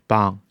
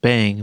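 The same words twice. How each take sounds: First: Bang said slowly with the Mandarin a, open and further back; careful Mandarin bang, first tone held level; slow pinyin bang. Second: Bang said like the English word, with the English a; English-style bang. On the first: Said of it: "but instead bang". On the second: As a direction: bang as an English speaker reads it. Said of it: "this isn't pronounced bang". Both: Shown as a demonstration.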